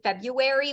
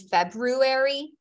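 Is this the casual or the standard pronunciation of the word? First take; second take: casual; standard. First: It is said in the speaker's everyday casual way. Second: It is said in the technically standard way. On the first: "I say February" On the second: "when it's technically February"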